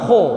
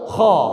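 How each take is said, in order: First: The sound is light and thin. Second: The sound is heavy, thick and strong. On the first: The speaker calls it wrong. "jangan kho" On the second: The speaker calls it right. "Huruf tebal itu diucapkan serius, serius dan kuat"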